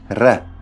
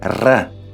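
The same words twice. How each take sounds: First: A single tongue-tip tap behind the teeth. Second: A rolled tongue-tip trill behind the teeth. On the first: "the alveolar tap" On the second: "an alveolar trill"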